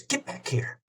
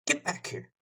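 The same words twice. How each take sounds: First: Higher, softer call away from the mouthpiece; off-mic call. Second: Whispered, much softer "Get back here"; hushed call. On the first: Singer on a radio call calling her dog, off-mic. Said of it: "pulls her, uh, mouth away from the phone". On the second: Singer on a radio call hissing at her runaway dog, hushed. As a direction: hiss it under the breath. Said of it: "She says". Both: Retold or imitated.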